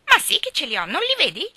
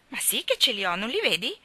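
First: High, loud mimicking child; mocking echo. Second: Put-on puzzled little girl, only slightly raised; perplexed retort. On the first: Geraldine parrots Ivy's scornful phrase, mocking echo. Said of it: "le fece eco Geraldine". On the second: Ivy answers Geraldine about her bows, mildly perplexed. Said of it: "Ivy era perplessa". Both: A narrator's reading.

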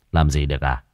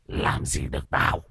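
First: Low, unimpressed retort; dry mocking echo. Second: Low, soft rasping growl; taunting possessed voice. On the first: Master answers the possessed man's dare, coolly mocking. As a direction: throw the taunt back in a clean, low voice. Master echoes the taunt back. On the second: Possessed man defies the master, raspy taunting growl. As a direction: sneer it hoarsely with a rising end. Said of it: "ré lên cười". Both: A narrator's reading.

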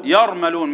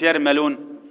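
First: "يرملون" as yarmaloon, dark full r; heavy r. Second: "يرملون" as yeri-meloon, thin r; thin out the r and vowels in "يرملون"; wrong light r. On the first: Teacher modelling the mnemonic word, "يرملون" with heavy r. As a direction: thicken the r in "يرملون". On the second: Teacher showing what not to say, "يرملون" with light r. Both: Shown as a demonstration. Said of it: "مش يرملون".

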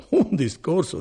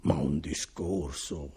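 First: Un discorso said again higher and louder, stress on un; emphatic repeat. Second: Said in the usual way. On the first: A narrator's reading. Bortolo praising the envoy's speech to Renzo, higher and louder emphatic repeat. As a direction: lift "un discorso" up and punch it with admiration. Repeated phrase, second take raised.

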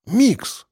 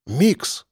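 First: "Микс" repeated higher with an emphatic rise; insistent repeat. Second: Proud. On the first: Boy repeating his nickname to a puzzled man, insistent. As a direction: say "Микс" again, pushing it on him. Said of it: "Что, простите?". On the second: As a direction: offer "Микс" like a proud title. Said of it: "гордо сказал парень". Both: A narrator's reading.

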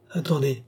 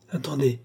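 The two takes are said the same way.

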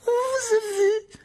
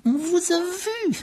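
First: Très aigu, lent, sifflé avec rage. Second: Très aigu, très lent, sifflé. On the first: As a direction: appuyer sur vous en sifflant. (voix sifflante, triomphante) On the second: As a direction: siffler chaque syllabe avec rage. (voix sifflante et menaçante) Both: A narrator's reading. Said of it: "siffla-t-il".

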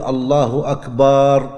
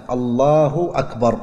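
First: "أكبر" said slowly as "akbaar" with the vowel after the b drawn out; "الله أكبر" slow, with a long "baa" in "أكبر". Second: Said in the usual way. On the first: Shown as a demonstration. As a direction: draw out the ba in "أكبر" like a plural. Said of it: "لا يصح أن يمد الباء في أكبر". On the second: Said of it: "لا بد أن تكون بهذا اللفظ".

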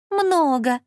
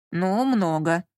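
First: Higher-pitched teasing echo; mocking mimicry. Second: Resigned, sighed admission; sighing. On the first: Lola mimics her partner Lyonya, mockingly. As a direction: throw the word back, mimicking him. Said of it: "передразнила его боевая подруга". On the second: Lyonya answers Lola about the number, sighing. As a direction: admit it with a weary sigh. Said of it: "вздохнул Лёня". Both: A narrator's reading.

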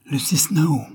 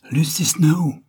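First: High, excited cry of a name; a bit hysterical. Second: High, overexcited cry; a bit hysterical. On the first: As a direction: call her name in a rush of overexcitement. (cri un peu hystérique) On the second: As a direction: fling the name out, almost shrieking with excitement. (cri aigu, un peu hystérique) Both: Acted. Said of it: "d'une voix un peu hystérique".

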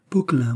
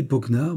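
First: "Poquelin" ending on a nasal -lin; "Poquelin" with -lin, not -nard; name correction. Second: "Poquenard" ending in -nard instead of -lin; mistaken name. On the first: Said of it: "Poquelin, vous avez raison". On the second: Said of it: "Poquelin, mon ami". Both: Acted.

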